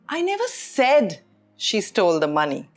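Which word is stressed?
said. The stress falls on the word said. It was implied, not said. "which means I didn't say it, but it was implied"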